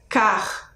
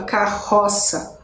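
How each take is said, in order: First: Carroça split by syllable, car-ro-ça. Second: Carroça said whole and slow, no syllable break; spoken naturally. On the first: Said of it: "um R fica na primeira sílaba, carroça". (carroça dita sílaba por sílaba) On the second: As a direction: say carroça as in normal speech. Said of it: "Mesmo que na hora que eu fale não perceba". (carroça falada de forma natural) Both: Shown as a demonstration.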